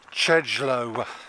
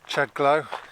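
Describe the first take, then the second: First: The second syllable sounds like low. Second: The second syllable sounds like glow. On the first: The speaker calls it right. "it should be Chedglow" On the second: The speaker calls it wrong. "That pronunciation is illiterate"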